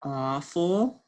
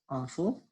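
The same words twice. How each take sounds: First: Awful drawn out in two parts, aw-ful; sounded out. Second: Said in the usual way. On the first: Shown as a demonstration. Teacher decoding for the class, awful sounded out. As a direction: stretch both parts of awful. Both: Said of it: "words we just sounded out".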